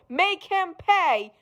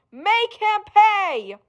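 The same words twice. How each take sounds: First: Sinister urging. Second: Higher, slow drawn-out command; slow higher insistent order; slow rising command. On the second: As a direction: press the demand harder. Sinister voice urging revenge. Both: Acted.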